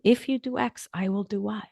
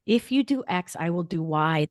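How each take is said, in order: First: "If" hit and raised, "do" leaned on softly at the end; stress on if. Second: "If you do X" with you lifted, "I will do Y" with will stressed. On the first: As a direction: open with a firm "If", then land "do Y" quietly. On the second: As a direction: spell the boundary out calmly, leaning on "you" and "will". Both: Shown as a demonstration. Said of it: "That's the math of a loving, clear boundary".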